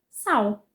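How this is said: The word ends with a U-like vowel sound. This is how most Brazilians say it. "vocalizando esse L, transformando-o em U"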